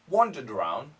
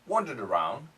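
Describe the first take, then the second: First: It is said in a British or Australian accent. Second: It is said in a British or Australian accent.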